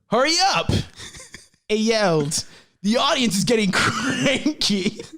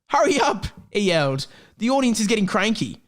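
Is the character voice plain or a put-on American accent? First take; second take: American accent; plain. First: It is read in a put-on American accent. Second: It is read with no real character voice. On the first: "Hagrid's going to be an American for today" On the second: "That's not really a Hagrid voice"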